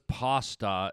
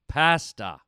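First: The word is said a non-Canadian way. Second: The word is said the Canadian way. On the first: The speaker calls it wrong. "Whoever says pasta is from a demented universe" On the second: The speaker calls it right. "Either say it like a Canadian"

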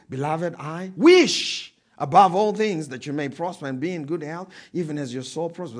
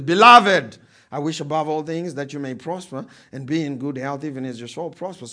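First: The word wish is stressed. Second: The word beloved is stressed.

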